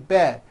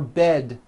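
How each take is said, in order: First: The final D sound is dropped and unheard. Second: The final D sound is clearly released. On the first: The speaker calls it wrong. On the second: The speaker calls it right.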